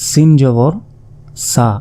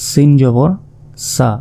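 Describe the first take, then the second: No difference in how they are said.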